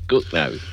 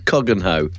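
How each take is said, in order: First: The name is shortened to two syllables. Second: The name is said fully, with three syllables. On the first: The speaker is from the area. The speaker calls it right. "That's Cookno" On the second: The speaker is not from the area. The speaker calls it wrong. "where's Coggenhoe? They'd go, you're not from around here"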